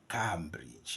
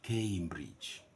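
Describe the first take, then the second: First: The first syllable does not sound like 'came'. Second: The first syllable sounds like 'came'. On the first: The speaker calls it wrong. "the pronunciation of this word is not, it's never, never, never" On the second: The speaker calls it right. "No, it's K A"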